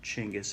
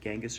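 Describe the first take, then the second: First: The name begins with a 'ch' sound. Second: The name begins with a 'j' sound. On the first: This is the proper form. The speaker calls it right. "Everybody tells me it's Chinggis" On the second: This is the familiar form. The speaker calls it wrong. "I prefer Genghis, although it's not the proper"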